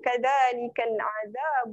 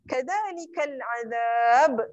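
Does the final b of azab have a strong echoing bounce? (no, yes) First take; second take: no; yes. First: The final b flows on without a bounce. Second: The final b ends with a strong bounce. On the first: The reciter continues without stopping. "Yang tu tak ada falfalah" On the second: The reciter stops at this point. "kalau kita nak berhenti, kita ambil lantunan yang besar"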